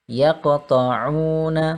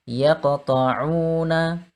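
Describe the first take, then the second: No difference in how they are said.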